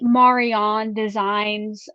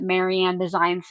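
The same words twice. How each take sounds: First: The name is said with a Dutch pronunciation. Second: The name is said with an English pronunciation. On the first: The speaker calls it right. "I'm going to guess because it is a Dutch company" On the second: The speaker calls it wrong. "more like how I would pronounce it normally"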